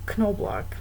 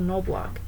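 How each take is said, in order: First: The initial K is pronounced before the N. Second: The initial K is silent before the N. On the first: This is how the home community has always said it. "they still pronounce both the K and N sound in the beginning" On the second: Those who moved away changed the name to spare explaining it. "they usually end up changing their pronunciation to"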